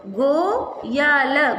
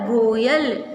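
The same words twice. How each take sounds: First: गो या ल spaced out slowly; teacher sounding out Goyal; syllable by syllable. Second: Said in the usual way. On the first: Shown as a demonstration. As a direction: sound out गो या ल piece by piece. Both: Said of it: "इसका उच्चारण होगा".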